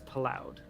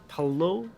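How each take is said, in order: First: The surname is said in an anglicized way. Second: The surname is said in a French way. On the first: The speaker calls it wrong. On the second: The speaker calls it right.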